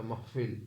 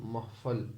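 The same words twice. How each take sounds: First: "महफिल" with a short i in the last syllable; "महफिल", ending in -fil; pronunciation variant. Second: "महफल" with an a in the last syllable; "महफल", ending in -fal; pronunciation variant. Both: Shown as a demonstration. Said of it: "या महफिल".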